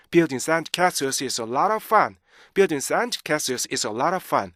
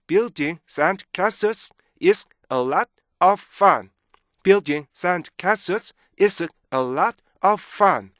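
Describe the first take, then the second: First: Connected sentence on short breath, LOT OF run together; linked reading. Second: Very slow, higher, word-by-word reading; broken into chunks. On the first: Teacher modelling for students, smoothly linked sentence. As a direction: join every chunk into one flowing line. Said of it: "이렇게 여러분들 읽어주셔야 돼요". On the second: Teacher showing the original sentence, slow and separated. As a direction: chop the sentence with clear stops. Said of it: "원래 이 문장은요". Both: Shown as a demonstration.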